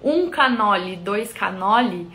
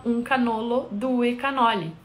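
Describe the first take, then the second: First: "um canoli, dois canoli" in Brazilian Portuguese, both ending in -i; Portuguese form. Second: "um canolo, due canoli" said the Italian way, singular ending in -o; correct Italian. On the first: Typing the Portuguese into the translator, Brazilian pronunciation of "um canoli, dois canoli". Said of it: "do português". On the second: Giving what is said there, Italian pronunciation of "um canolo, due canoli". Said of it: "o correto, que é dito lá". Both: Shown as a demonstration.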